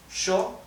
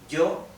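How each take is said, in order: First: It starts with sh, Argentine style. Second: It starts with y, general Spanish style.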